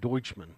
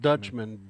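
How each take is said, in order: First: The first syllable sounds like 'doytch'. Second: The first syllable sounds like 'dutch'. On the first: The speaker calls it right. "so actually German is Deutsch, so it's" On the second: The speaker calls it wrong.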